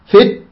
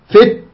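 No difference in how they are said.

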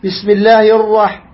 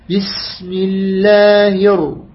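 First: The r is rolled with several taps. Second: The r is a single gentle tap. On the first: The speaker calls it wrong. "جاءتك التكرار" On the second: The speaker calls it right. "أما دخلت برفق هكذا"

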